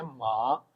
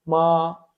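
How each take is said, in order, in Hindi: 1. इस अक्षर में तीसरा टोन है, जो नीचे जाकर ऊपर उठता है। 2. इस अक्षर में पहला टोन है, ऊँचा और सपाट। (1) "इस पे थर्ड टोन थी" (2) "फर्स्ट टोन में इसको रीड करेंगे"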